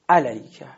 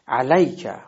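First: The stress is not on the 'lay' syllable. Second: The stress is on the 'lay' syllable. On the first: The speaker calls it wrong. "حالت ناصحیح اون اینجوری میشه" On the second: The speaker calls it right. "ببینین حرف لام علیکه"

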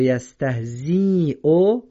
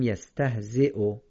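First: The ya is sounded as a long ee. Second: The ya is silent before the glottal stop. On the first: The speaker calls it wrong. "اگر بگیم یستهزیو یا یستهزیو غلطه" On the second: The speaker calls it right. "باید بگیم یستهزیو"

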